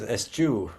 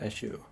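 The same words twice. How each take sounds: First: The middle sound is a hard 'ch'. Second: The middle sound is a soft 'sh'. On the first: The speaker calls it right. "it is a hard C H" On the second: The speaker calls it wrong. "I had always pronounced that as a shoe"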